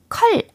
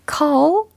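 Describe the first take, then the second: First: The vowel is a short uh sound. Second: The vowel is an open aw sound. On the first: The speaker calls it wrong. "컬 아닙니다" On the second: The speaker calls it right. "call 이렇게 발음 연습을 해두세요"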